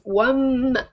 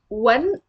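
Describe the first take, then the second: First: The word ends with an m sound. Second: The word ends with an n sound. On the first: The speaker calls it right. "it is وم" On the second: The speaker calls it wrong. "This is not when"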